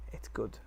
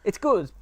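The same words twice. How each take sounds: First: Soft, unconvinced and low; quiet, flat verdict. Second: Higher, louder, insisting; emphatic and loud. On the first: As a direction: mutter it half-heartedly. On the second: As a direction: declare it with gusto. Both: Shown as a demonstration. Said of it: "I say that with the caveat".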